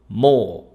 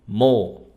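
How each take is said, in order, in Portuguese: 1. A vogal é longa e arrastada. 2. A vogal é longa e arrastada.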